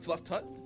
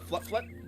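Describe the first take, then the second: First: The second word starts with a t sound. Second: The second word starts with an fl sound. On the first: The speaker calls it wrong. "not fluff tut" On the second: The speaker calls it right. "That's a uh, fluff flut"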